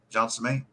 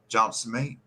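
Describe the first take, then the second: First: The words are squashed into a few syllables. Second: The same.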